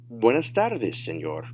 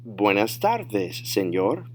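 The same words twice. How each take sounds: First: Fluent, connected "Buenas tardes, señor"; advanced-level demo without stretching; natural speed. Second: Slow model reply, stretching out "tardes"; drawn-out teacher demo; slow, careful model. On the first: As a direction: say it in one run at native pace. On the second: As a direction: say "Buenas tardes, señor" slowly for learners. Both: Shown as a demonstration. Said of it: "say them at natural speed".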